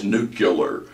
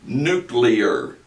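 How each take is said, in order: First: Nuclear said nu-kyuh-lar; wrong nuclear. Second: Nuclear said as nu-klee-ar; correct nuclear. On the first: Teacher mimicking the nucular mistake. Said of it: "There is no such word as nuclear". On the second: Teacher modeling nuclear the right way. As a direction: give nuclear its proper klee sound. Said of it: "It is this word right here". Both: Shown as a demonstration.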